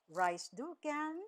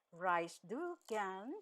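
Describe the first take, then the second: First: Said in the usual way. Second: "Reist du gern" drawn out slowly; slow teaching repeat. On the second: Shown as a demonstration. Teacher repeating an informal German question for learners, slowly. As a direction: stretch "du", each word separate.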